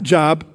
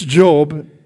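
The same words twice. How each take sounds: First: It sounds like the everyday word for work. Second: It sounds different from the everyday word 'job'. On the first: The speaker calls it wrong. "It's not Job, even though it looks like Job" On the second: The speaker calls it right. "properly pronounced"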